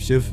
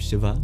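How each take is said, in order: First: The word ends on a consonant, no final vowel. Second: The word ends with a short final vowel. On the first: This is the Hindi form. "with the schwas deleted" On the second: This is the older Sanskrit form. "Sanskrit used to pronounce the schwas"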